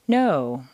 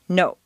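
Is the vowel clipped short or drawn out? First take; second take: drawn out; clipped. First: The vowel is drawn out, American style. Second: The vowel is clipped short, Spanish or Japanese style.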